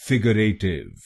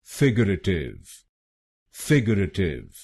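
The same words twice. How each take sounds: First: फिगरेटिव said the wrong way, with a hard, aspirated f; the common mispronunciation of फिगरेटिव; wrong pronunciation. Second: फिगरेटिव said as fig-ur-a-tiv, with a u in the second syllable; correct pronunciation. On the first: Teacher showing students the wrong way to say it. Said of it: "इस शब्द को गलत बोलते हैं". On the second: Teacher modelling the correct pronunciation for viewers. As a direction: model फिगरेटिव slowly and carefully, the right way. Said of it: "इसकी सही pronunciation है". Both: Shown as a demonstration.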